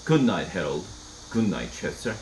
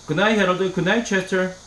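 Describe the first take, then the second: First: Calm, softer good night; more calmly. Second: Said in the usual way. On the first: A narrator's reading. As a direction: settle everyone down gently. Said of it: "and then more calmly".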